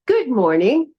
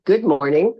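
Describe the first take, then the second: First: Cheery, higher-pitched good morning; positive greeting. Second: Mildly grumpy good morning; grumpy greeting. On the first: Yoga teacher re-enacting yesterday's greeting to her partner, very positive. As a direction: greet brightly, lilting up at the end. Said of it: "I set the tone for the day very positively". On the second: Yoga teacher re-enacting her greeting to her partner, mildly grumpy. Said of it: "I was feeling kind of grumpy". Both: Retold or imitated.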